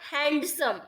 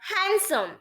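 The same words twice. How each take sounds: First: The d sound in the middle is pronounced. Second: The d sound in the middle is silent. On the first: The speaker calls it wrong. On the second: The speaker calls it right.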